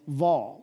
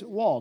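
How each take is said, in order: First: The word begins with a V sound. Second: The word begins with a W sound. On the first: "I've heard it pronounced as Vaw with a V" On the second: "it is Waw, W-A-W"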